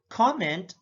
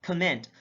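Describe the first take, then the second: First: COMment, full open COM; careful demo of COMment; stress on first syllable. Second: ComMENT, second syllable stressed; careful demo of comMENT. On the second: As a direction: hit the MENT in "comment". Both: Shown as a demonstration. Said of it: "difference in terms of sound".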